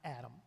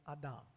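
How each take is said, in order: First: The name is said with an English pronunciation. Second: The name is said with a Hebrew pronunciation. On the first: It refers to one man. The speaker calls it wrong. "Not Adam" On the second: It refers to an earth being. The speaker calls it right. "but Adam. And Adam means earth being"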